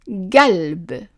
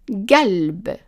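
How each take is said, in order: The two takes are said the same way.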